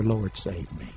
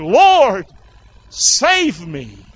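First: Low, soft, subdued prayer; quiet reminder. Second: Loud high cry on Lord, falling away. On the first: Shown as a demonstration. Preacher reminds strugglers what to pray, quiet reminder. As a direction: say it softly as a reminder. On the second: Acted. Sinking Peter calls to Jesus, crying out. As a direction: cry out for rescue, drawn out. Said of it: "he cried, saying".

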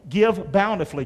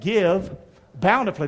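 First: Said in the usual way. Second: "Give" then a pause before "bountifully"; split with a pause. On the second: Shown as a demonstration. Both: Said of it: "Can you say that?".

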